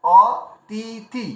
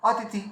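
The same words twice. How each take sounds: First: অতিথি very slowly as অ, তি, থি; letter by letter. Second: Said in the usual way. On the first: Shown as a demonstration. Teacher showing each letter's tone, অতিথি syllable by syllable. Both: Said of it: "তার পুরোটা মিলে একটা tone বেরিয়ে আসে".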